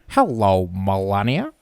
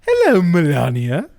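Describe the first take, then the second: First: It is said in a Peter Griffin voice. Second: It is said in a Stewie Griffin voice.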